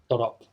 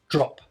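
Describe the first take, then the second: First: An extra vowel splits the d and r. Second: The d and r join with no vowel. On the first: The speaker calls it wrong. "This extra o" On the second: The speaker calls it right. "English is just one syllable"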